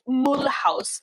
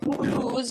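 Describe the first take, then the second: First: The name is said with German pronunciation. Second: The name is said with French pronunciation.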